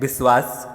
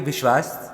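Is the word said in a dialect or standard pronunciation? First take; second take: dialect; standard. First: It is said in a regional dialect pronunciation. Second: It is said in standard Hindi pronunciation. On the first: "इसी शब्द के दूसरे dialect" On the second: "शुद्ध हिंदी का शब्द है"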